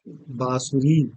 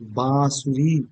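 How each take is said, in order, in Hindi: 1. पहला स्वर अनुनासिक नहीं बोला जाता। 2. पहला स्वर अनुनासिक बोला जाता है। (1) "इसी तरीके से" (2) "बिंदी लगाई, चंद्र बिंदु"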